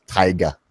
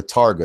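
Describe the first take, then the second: First: "taiga" pronounced TIE-guh; "taiga" said TIE-guh, without any R; corrected pronunciation. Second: "Targa" pronounced TAR-guh; own pronunciation of taiga. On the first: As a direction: say "taiga" with an eye vowel first. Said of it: "not gonna argue with you over English pronunciation". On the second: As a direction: say "Targa" with an R-coloured first syllable. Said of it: "how I say it pronounced". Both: Shown as a demonstration.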